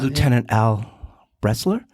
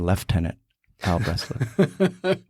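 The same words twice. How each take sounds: First: It is said in a plain American accent. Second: It is said in a put-on Canadian accent.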